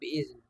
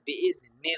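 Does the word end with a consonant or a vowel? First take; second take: consonant; vowel. First: The word ends on a bare consonant. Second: The word ends with a short vowel. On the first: The reader stops here to breathe. "साँस तोड़ेंगे तो" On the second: The reading continues into the next word. "मिलाकर पढ़ेंगे तो"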